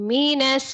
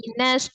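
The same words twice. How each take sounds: First: The first syllable is pressed hard and forcefully. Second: The first syllable is said thin and light. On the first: The speaker calls it wrong. "jangan di minus gitu, jangan ditekan mi-nya" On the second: The speaker calls it right. "tipis aja"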